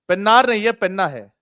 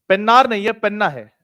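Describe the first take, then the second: The two takes are said the same way.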